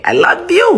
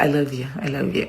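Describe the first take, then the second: First: Gushing affection. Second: Low, soft endearment; soft affection. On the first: Signing off to her viewers, high gushing affection. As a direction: lift it high with a rising end. Affectionate sign-off, bigger repeat. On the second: Signing off to her viewers, quiet low affection. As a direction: say it softly, dropping low. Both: Real, not acted.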